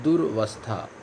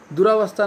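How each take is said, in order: First: दुर्वस्था with a short a, lower; दुर्वस्था said as the right form; correct form durvastha. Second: दुरावस्था with a long aa after र; दुरावस्था said as the wrong form; wrong form duraavastha. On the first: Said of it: "वो होता है दुर्वस्था". (सही रूप दुर्वस्था) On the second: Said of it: "दुरावस्था नहीं होता है". (गलत रूप दुरावस्था) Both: Shown as a demonstration.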